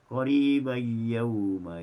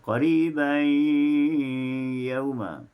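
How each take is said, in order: First: The n merges into the y without nasalisation. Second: The n is nasalised and held into the y. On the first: This follows another reading tradition. "dibaca dengan bila ghunah tanpa dengun" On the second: This follows one reading tradition. "haf membaca dengan uh, ghunah"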